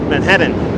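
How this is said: It is said in a strong Queens accent. "if you want to sound like a proper Queens, Queenser"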